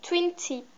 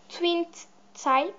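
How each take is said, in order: First: Second try at English in a French accent; English corrected to "tip", French accent showing; French-accented "tip", with a short i. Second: English product name in a real French accent; halting English words with a French accent. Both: Real, not acted. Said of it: "désolée pour mon accent anglais merdique".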